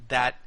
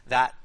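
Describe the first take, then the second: No difference in how they are said.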